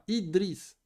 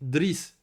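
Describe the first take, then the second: First: The name starts with the vowel i before dr. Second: The name starts directly with the consonant cluster dr. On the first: The speaker calls it right. "Normalement, c'est Idriss" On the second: The speaker calls it wrong. "tu commences avec une soukoun. On peut pas faire ça"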